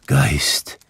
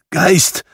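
First: Low, whispered, meek Geist; humble whisper. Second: High, loud, quavering call of Geist; trembling voice. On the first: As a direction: say Geist humbly, under your breath. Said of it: "sagte Scrooge demütig". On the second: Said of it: "rief Scrooge mit bebender Stimme". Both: Acted.

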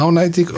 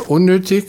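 First: „Auch neidig“ als breites schwäbisches „au-naitig“; schwäbische Aussprache. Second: Said in the usual way. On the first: Shown as a demonstration. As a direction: sag „Auch neidig“ mundartlich für unnötig. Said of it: "das hast du mir verstanden". (auf Schwäbisch ausgesprochen)

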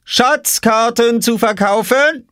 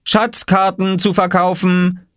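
First: Very high, long-drawn vendor's cry; slow, piercingly high boy's sales call. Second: High, drawn-out vendor's call; slow sing-out, pitched high. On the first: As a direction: sing it out pointedly, slowly. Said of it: "rief Oskar hinter seiner Obstkiste". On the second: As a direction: cry your wares like a boy. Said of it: "rief Oskar". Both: A narrator's reading.

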